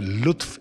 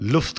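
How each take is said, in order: First: The word ends with the sounds t then f. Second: The word ends with the sounds f then t. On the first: The speaker calls it right. "लुत्फ एक बहुत ही खूबसूरत, बहुत ही बारीक लफ्ज़ है" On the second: The speaker calls it wrong. "अक्सर इसको मिस प्रोनाउंस करते हैं लोग, लुफ्त कह देते हैं"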